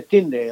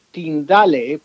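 First: Tyndale said as "TIN-del"; English pronunciation. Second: Tyndale read letter by letter in Spanish, "tin-DA-le"; pronounced as spelled. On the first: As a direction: say Tyndale the English way, in two syllables. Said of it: "se pronuncia Tyndale". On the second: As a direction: say Tyndale as it is written, with three Spanish syllables. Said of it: "se escribe". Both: Shown as a demonstration.

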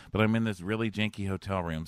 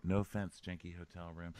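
First: Said in the usual way. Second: Much softer, lower mumbled apology; hushed aside. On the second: Pretend. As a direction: drop it to a discreet aside.

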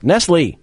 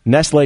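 First: "Nestle" as NESS-lee; familiar Nestle pronunciation. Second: "Nestle" as NESS-lay; true Nestle pronunciation. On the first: Host reverting to the name that sounds right, familiar pronunciation. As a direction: punch "Nestle" back to a "lee" ending. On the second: Host testing the corrected name on chocolate milk, "lay" pronunciation. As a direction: try "Nestle" with a "lay" ending. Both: Shown as a demonstration. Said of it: "that doesn't sound right".

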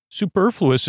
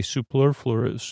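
First: "superfluous" said clearly as "soo-per-floo-us", pitched high; careful superfluous. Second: "Superfluous" slurred as "supler-flurs", slow and soft; garbled superfluous. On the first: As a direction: land "superfluous" fully, syllable by syllable, up high. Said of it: "It's surprising I can say superfluous". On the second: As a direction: trip over "Superfluous", saying "suplerflers". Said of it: "what almost did I say?". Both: Shown as a demonstration.

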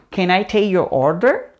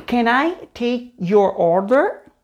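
First: Said in the usual way. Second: "can I take your order" drawn out word by word; slow teaching take with gaps between words; slow model. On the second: Shown as a demonstration. Slow model, then natural take.

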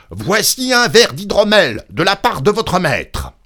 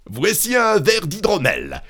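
First: Loud, high, forceful shout; cri à pleine voix. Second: High-pitched calling out; criant. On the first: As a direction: yell it at someone deaf. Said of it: "cria-t-il de toutes ses forces". (cri forcé, fort et aigu) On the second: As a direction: call it to someone hard of hearing. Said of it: "cria-t-il à la femme morte". (appel crié, voix aiguë) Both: A narrator's reading.

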